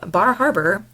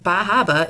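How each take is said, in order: First: The r sounds are pronounced in the name. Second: The r sounds are dropped from the name.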